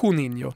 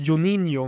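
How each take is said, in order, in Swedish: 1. Namnet börjar med ett spanskt ljud. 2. Namnet börjar med ett J-ljud. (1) "Spanskt uttal då" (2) "jag uttalade ju Juninho med J"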